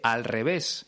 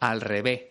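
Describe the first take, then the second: First: The final s is pronounced clearly. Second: The final s is dropped, Andalusian style.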